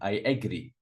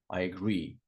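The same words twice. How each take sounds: First: The stress is on the first syllable. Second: The stress is on the second syllable. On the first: The speaker calls it wrong. "A lot of students say agree" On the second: The speaker calls it right.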